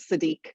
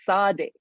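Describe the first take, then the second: First: The name has an anglicized English pronunciation. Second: The name has its original non-English pronunciation. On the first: This is how others came to say the name. The speaker calls it wrong. "his name is not" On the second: This is the name as it truly is. The speaker calls it right.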